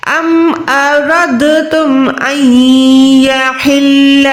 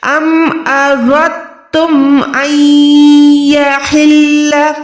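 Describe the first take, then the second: First: अरदतुम recited slowly with the दाल sounded; slow recitation voicing the दाल in अरदतुम; wrong reading. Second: अरदतुम slow with heavy रॉ and दाल dropped; correct recitation. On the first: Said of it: "अरदतुम पढ़ते हैं ना आप भी". (अरदतुम में दाल पढ़ते हुए) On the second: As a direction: chant अरदतुम with thick रॉ, no दाल. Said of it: "मोटा अदा करना है". (मोटी रॉ के साथ अरदतुम) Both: Shown as a demonstration.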